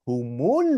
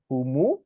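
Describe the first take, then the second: First: The word ends in an l sound. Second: The word ends in a vowel. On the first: The word is joined to the next word. "because the alif lam comes next, so it's humul" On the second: The word stands on its own. "It's humu"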